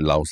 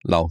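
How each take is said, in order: First: Laos said as two beats, lah-ohss, with a final s. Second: Lao said as one syllable rhyming with cow, no s; Lao without the s. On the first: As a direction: say Laos ending on a clear s sound. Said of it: "I always pronounce it Laos". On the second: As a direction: say Lao, dropping the final s entirely. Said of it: "then we just do a lisp Lao". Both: Shown as a demonstration.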